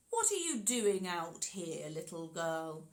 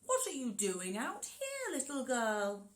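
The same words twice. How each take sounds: First: Friendly wolf. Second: A wolf faking niceness; sly wolf pretending to be nice; friendly wolf voice. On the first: Acted. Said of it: "in a voice as friendly as he could muster". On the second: Shown as a demonstration. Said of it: "What's your best friendly wolf voice".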